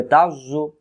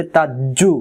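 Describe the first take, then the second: First: তাজ জু with a heavy buzzing Z and rounded lips; rounded, thick Z. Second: তাজ্জু with a hard English-style J instead of buzzing Z; wrong J sound. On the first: Teacher shows students the correct letter, rounded thick Z in তাজ জু. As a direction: say তাজ জু with a thick z from the tongue tip, mouth rounded. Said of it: "তাহলে এখানে মুখটা গোল হবে". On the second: Teacher warns students of the mistake, hard J in তাজ্জু. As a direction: turn the Z of তাজ্জু into a plain j. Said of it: "তখন এই জটা জিমে রূপান্তরিত হবে". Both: Shown as a demonstration.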